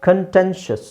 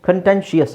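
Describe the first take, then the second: The two takes are said the same way.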